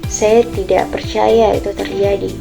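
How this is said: The sentence is said in a sad tone.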